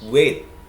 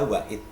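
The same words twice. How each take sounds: First: The word is said as one syllable. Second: The word is said as two syllables. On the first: The speaker calls it right. "wait itu satu suku kata" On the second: The speaker calls it wrong. "tidak boleh dibaca wait"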